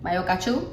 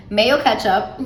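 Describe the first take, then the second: First: Mayo as "my-o", ketchup as "catchoo"; odd pronunciation of mayo ketchup. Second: Said in the usual way. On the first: Real, not acted. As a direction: mispronounce it "my-o catchoo". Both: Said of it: "I don't know why I said it like that".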